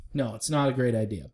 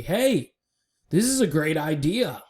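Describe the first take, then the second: First: Said in the usual way. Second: Higher-pitched, mock-excited announcement; mock enthusiasm. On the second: Vlogger mimicking a turnaround to everybody, mock enthusiasm. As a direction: pitch it up like a hyped-up proposal. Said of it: "and said to everybody".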